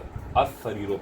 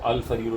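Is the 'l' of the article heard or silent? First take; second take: silent; heard. First: The l merges into the following s sound. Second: The l of the article is clearly pronounced. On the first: The speaker calls it right. "बल्कि अस सरीरो पढ़ा जाएगा" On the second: The speaker calls it wrong. "अल सरीरो नहीं पढ़ा जाएगा"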